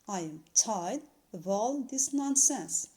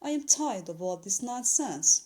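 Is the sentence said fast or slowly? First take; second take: Slowly; Fast. First: The sentence is said at a slower pace. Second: The sentence is said at a quicker pace.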